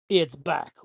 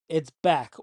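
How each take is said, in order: First: It is said in an exaggerated put-on voice. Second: It is said in his ordinary speaking voice.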